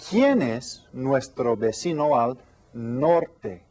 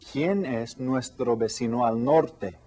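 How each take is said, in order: First: Slow, careful question to the class; teacher slowly posing a new question to the class; slow question read. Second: Said in the usual way. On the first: Shown as a demonstration. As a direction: ask it slowly so they follow. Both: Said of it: "Hoy tengo otra pregunta nueva".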